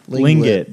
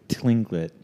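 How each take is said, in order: First: The word begins with an L sound. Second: The word begins with a T sound. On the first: "It might be silent" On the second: "I don't think that's how you pronounce that"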